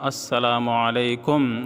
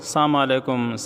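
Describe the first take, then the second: First: The greeting begins with 'as' and says 'salamu'. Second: The greeting begins with 'sa' and drops 'as'. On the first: The speaker calls it right. "सही अल्फाज जो है वो अदा करनी चाहिए" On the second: The speaker calls it wrong. "तो ये अल्फाज गलत है"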